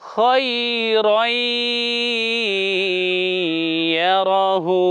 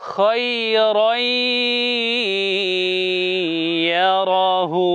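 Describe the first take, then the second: The two takes are said the same way.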